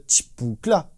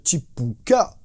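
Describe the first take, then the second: First: Chipoukla drawn out slowly like a drum fill; vocal drum fill. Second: Chipuka sung out slowly as a drum fill; vocal drum fill. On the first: Drum teacher imitating the live fill, slow beatbox. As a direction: mouth the live version's fill at half speed. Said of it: "il fait juste". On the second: Drum teacher imitating the studio fill, slow beatbox. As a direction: spell out the studio fill with your mouth, slowly. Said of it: "il le fait juste". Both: Retold or imitated.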